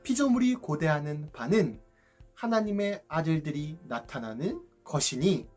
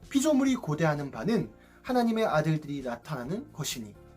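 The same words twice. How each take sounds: First: The verse is read slowly and deliberately. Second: The verse is read at a normal pace.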